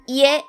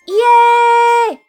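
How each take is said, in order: First: The word is said in a calm, normal voice. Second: The word is shouted loudly and energetically. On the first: It means home. "It's read" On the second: It sounds like a cheer of joy. "when shouted like this"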